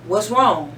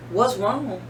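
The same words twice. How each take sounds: First: Officer's question, a bit louder; mock the cop asking what's wrong; quoting officer. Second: Said in the usual way. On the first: Host quotes the officer's question, slightly louder. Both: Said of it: "He asked a question".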